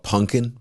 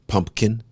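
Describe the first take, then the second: First: The middle P sound is dropped. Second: The middle P sound is heard. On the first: "I used to call it pumpkin" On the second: "I know it's pumpkin with a P"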